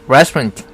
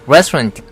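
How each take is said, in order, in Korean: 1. 강세는 첫 음절에 놓입니다. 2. 강세는 첫 음절에 놓입니다.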